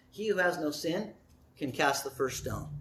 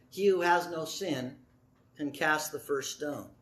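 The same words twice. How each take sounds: First: Low, soft and measured; softly spoken, calm authority; gentle quiet answer. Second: Low and soft, unhurried; calm word that disarms; softly, without raising the voice; gentle quiet answer. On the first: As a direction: let the pause hold, then speak softly. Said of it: "That was a gentle word". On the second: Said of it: "I don't think he raised his voice". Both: Acted.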